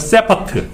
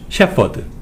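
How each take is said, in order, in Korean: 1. s로 시작하고 끝은 강한 t예요. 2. sh로 시작하고 끝은 부드러운 d예요.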